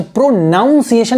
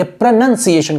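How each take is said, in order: First: "प्रोनाउंसिएशन" with a NOUN middle; wrong pronunciation. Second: "प्रोनंसिएशन" with a short NUN middle; correct pronunciation. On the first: Teacher shows the mistake to avoid, "प्रोनाउंसिएशन" with NOUN in it. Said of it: "नहीं कहेंगे". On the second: Teacher gives the corrected form, "प्रोनंसिएशन" with NUN, not noun. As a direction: say "प्रोनंसिएशन" as pra-nun-si-ay-shun. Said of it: "कहेंगे". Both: Shown as a demonstration.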